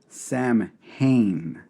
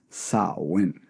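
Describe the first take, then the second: First: It is said the way it is spelled. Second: It is said differently from its spelling. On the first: The speaker calls it wrong. "it's spelled Samhain, but you do not say it that way" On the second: The speaker calls it right. "it's pronounced Samhain"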